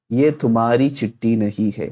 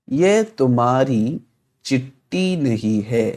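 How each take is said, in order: First: Said in the usual way. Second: Very slow, word by word; slow model reading. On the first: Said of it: "repeats at normal pace". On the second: Shown as a demonstration. Teacher to students, slow word by word reading. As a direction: lay out each word slowly for learners. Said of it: "teacher models Urdu sentence".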